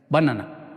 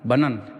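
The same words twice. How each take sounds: First: It is said flat, with even Spanish-like pronunciation. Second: It is said with English-style pronunciation and stress. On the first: The speaker calls it wrong. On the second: The speaker calls it right.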